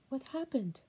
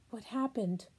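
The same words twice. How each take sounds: First: Same question pitched higher, pleading; anguished grandmother repeating her question. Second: Said in the usual way. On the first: Acted. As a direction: cry it out again, higher and desperate. Grandma pleads about the children.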